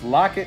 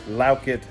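First: It sounds like the word locket. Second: It sounds different from the word locket. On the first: This is how it is said in the United States. "So it's Lockett here" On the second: This is how it is said in other parts of the world. "Lockett out of here"

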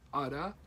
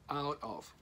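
First: The two words are blended into one reduced word. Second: The two words are said fully and separately.

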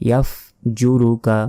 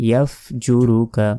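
No difference in how they are said.

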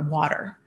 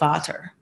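First: The word starts with a W sound. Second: The word starts with a V sound. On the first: This is how a native English speaker says it. The speaker calls it right. "Like instead of I want or water" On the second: This is how a German speaker might say it. The speaker calls it wrong. "they might pronounce their W's as V's"

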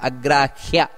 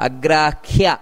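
The two takes are said the same way.

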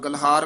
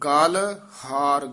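First: The two parts are run together. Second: The two parts are said separately. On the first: The speaker calls it wrong. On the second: The speaker calls it right.

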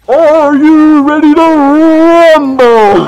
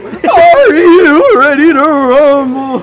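First: The voice stays steady throughout. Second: The voice cracks while saying it.

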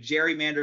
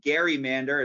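First: The word begins with a soft j sound. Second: The word begins with a hard g sound. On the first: The speaker calls it wrong. "is the wrong way to say it" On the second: The speaker calls it right. "It'd actually be"

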